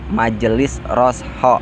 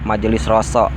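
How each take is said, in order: First: The middle consonant is said with an h sound. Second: The middle consonant is a plain s sound. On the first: The speaker calls it right. "make H" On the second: The speaker calls it wrong. "bukan Roso ya"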